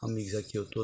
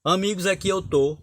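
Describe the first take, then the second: First: Lower, softer murmur of Amigos, aqui eu tô; hushed, lower run-through of Amigos, aqui eu tô; soft recital. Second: Higher and louder recital of amigos, aqui eu tô; declaimed verse. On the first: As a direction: read Amigos, aqui eu tô quietly to yourself. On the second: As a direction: proclaim amigos, aqui eu tô to an audience. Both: Shown as a demonstration. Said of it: "Por exemplo".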